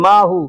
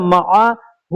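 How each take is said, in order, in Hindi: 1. पहले दो स्वर मिलकर एक लंबा स्वर बन जाते हैं। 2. पहले दो स्वरों के बीच एक साफ़ विराम है। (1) "ऐसे लोग आमतौर पे माहू बोलते हैं" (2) "लेकिन माहू नहीं होता है, मआ हु होता है"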